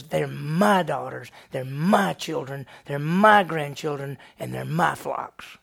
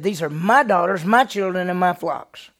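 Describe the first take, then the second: First: Slow, leaning hard on each "my"; possessive stress. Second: Louder, higher, hitting each "my"; loud claim. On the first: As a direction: stress "my" slowly, one claim at a time. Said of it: "he looks and says". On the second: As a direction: shout the claim, stressing "my". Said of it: "He said". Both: Acted.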